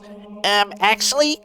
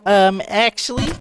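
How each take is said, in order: First: The voice is pinched and nasal, nose held. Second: The voice is spoken without a pinched nose.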